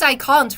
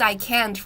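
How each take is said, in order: First: "can't" with a long open British "ah", like kahnt; British pronunciation. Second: "can't" with a flat American "a" as in cat; American pronunciation. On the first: Showing viewers the British "can't", broad ah. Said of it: "That is British accent". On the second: Contrasting the American "can't" for viewers, flat a. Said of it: "I don't use I can't". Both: Shown as a demonstration.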